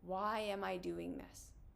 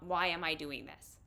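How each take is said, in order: First: It sounds gentle, curious and loving. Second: It sounds harsh, judgmental and ashamed.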